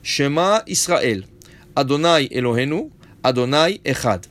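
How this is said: There is a pause after every two words.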